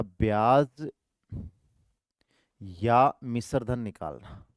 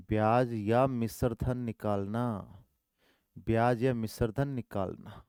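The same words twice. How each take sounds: First: Drawn-out words for note-taking; slow dictation. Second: Drawn-out repeated phrase; slow dictation. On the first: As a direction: spell it out slowly for the class. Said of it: "slow dictation". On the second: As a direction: repeat it slowly so they write it. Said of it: "repeated slowly". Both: Shown as a demonstration.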